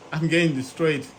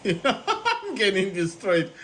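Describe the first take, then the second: First: Said in the usual way. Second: Slow, laughing through the words; amused at losing badly. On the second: Real, not acted. Same words said twice, laughing.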